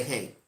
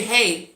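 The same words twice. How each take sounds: First: "Hey" dropped low and softer, matching energy; flat unbothered hey. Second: Said in the usual way. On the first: Retold or imitated. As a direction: toss back a low, dull "Hey". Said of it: "I say". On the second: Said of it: "They say".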